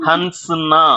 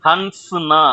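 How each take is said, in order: Both takes have the same delivery.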